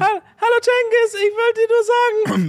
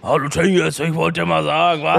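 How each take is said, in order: First: It is said in a high-pitched voice. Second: It is said in a deep, manly voice.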